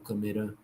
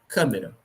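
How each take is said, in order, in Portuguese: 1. A tônica está na última sílaba. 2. A tônica está na antepenúltima sílaba. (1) "E se ela fosse oxítona" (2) "Se fosse proparoxítona"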